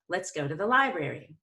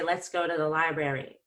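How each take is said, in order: First: The pitch rises on lie, then falls. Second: The pitch stays flat throughout. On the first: The speaker calls it right. "we're going to go up on lie and down on brary. ... That's vocal variety right there" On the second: The speaker calls it wrong. "That would be sort of boring"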